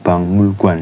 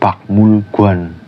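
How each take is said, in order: First: The consonant before mul is an ng sound. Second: The consonant before mul is a k sound. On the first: The speaker calls it right. "tapi bangmul guan" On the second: The speaker calls it wrong. "bukan bakmul guan"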